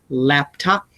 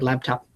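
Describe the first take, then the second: First: The second syllable has a full clear vowel. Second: The second syllable has a weak reduced vowel. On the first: "I don't say that" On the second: "I say laptop"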